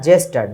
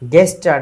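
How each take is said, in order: First: The word begins with a j sound. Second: The word begins with a hard g sound. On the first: The speaker calls it right. "জি এর উচ্চারণ জি হবে" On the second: The speaker calls it wrong. "গেস্টার না"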